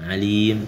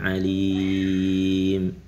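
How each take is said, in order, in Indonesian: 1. Vokal panjang ditahan selama dua harakat. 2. Vokal panjang ditahan selama empat harakat. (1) "Yang dua harokat" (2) "yang empat harokat"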